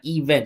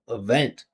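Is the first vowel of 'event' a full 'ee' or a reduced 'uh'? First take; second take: full ee; reduced uh. First: The first vowel is a full, clear 'ee'. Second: The first vowel is a reduced 'uh' sound. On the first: The speaker calls it wrong. "It's not event" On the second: The speaker calls it right. "it's uh. Listen to this. Uh uh event"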